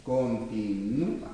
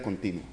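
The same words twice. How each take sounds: First: Continúa drawn out slowly, stressing the ú; Continúa, low and soft with a long stressed ú. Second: Continua with no stress on the u; continua, stressed before the final ua; unaccented U. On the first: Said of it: "Acento en la U". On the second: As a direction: say continua with stress on the ti, gliding over ua. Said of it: "Si no, diría continua". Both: Shown as a demonstration.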